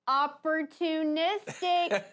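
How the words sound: The word sounds sarcastic and complaining. The day was actually hard and unwelcome. The speaker calls it wrong. "I'm hinting so you know I'm actually complaining. Make sure that you get it in my tone"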